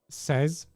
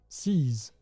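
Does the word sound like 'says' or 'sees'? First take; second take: says; sees. First: The vowel is short, like in 'says'. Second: The vowel is long, like in 'sees'. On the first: It is read as the French word for sixteen. The speaker calls it wrong. "says is how I used to pronounce your name" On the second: It is read as the English word meaning grab. The speaker calls it right. "That's not says, I know. It's seize"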